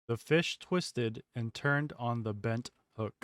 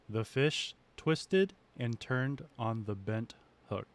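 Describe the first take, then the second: First: The recording is filtered, with fan noise reduced. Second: The recording is unfiltered, with fan noise audible. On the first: "There are four filters on this" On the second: "There are no filters on here whatsoever"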